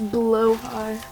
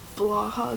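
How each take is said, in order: First: The name sounds like 'blow-high'. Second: The name sounds like 'blah-ha'. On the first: The speaker calls it right. "it's pronounced Blowhigh" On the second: The speaker calls it wrong. "it's not pronounced Blaha"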